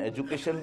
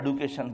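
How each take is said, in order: First: The middle consonant is a 'j' sound. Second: The middle consonant is a 'd' sound. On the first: This is how it is said in one region. "मैं एक जोग्राफिया में एजुकेशन बोलूं" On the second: This is how it is said in another region. "एक जोग्राफिया में एडुकेशन बोलूं"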